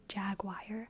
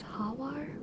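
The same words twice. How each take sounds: First: It is pronounced the American English way. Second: It is pronounced the Spanish way. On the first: "In America, we say jaguar" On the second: "In Spanish, it's jaguar"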